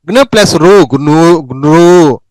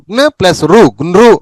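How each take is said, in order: First: గ్నృ slowly drawn out as "gnroo"; long vowel. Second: గ్నృ as a brief "gnru"; short vowel. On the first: Teacher drilling the rare జ్ఞ series, long vowel. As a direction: stretch the end of గ్నృ. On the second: Teacher drilling the rare జ్ఞ series, short vowel. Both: Shown as a demonstration. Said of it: "డెబ్బై ఎనిమిదో పేజీలో జ్ఞ".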